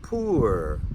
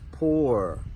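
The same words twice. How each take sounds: First: The vowel is an oo sound. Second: The vowel rhymes with the vowel in door. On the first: "pronounce it with that oo sound" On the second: "just like in floor and door"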